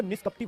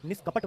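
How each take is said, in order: First: निष्कपटी with an added long "ee" ending; wrong pronunciation. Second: निष्कपट ending on a hard ṭ; correct pronunciation. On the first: Teacher rejects this word for children, mispronounced. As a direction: end निष्कपटी wrongly on "-tee". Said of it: "निष्कपटी word नहीं होता". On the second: Teacher gives children the right word, correctly pronounced. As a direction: stop निष्कपट on the final consonant. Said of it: "निष्कपट word होता है". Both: Shown as a demonstration.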